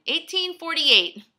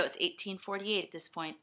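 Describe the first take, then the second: First: Disbelieving exclamation. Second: Said in the usual way. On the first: Real, not acted. Repeats time in disbelief.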